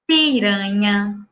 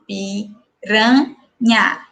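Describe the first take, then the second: First: Said in the usual way. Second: "piranha" drawn out very slowly, each syllable apart, final a held; "piranha" pulled apart very slowly for the class. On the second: Shown as a demonstration. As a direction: stretch out "piranha" so every syllable is heard. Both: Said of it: "Olha só".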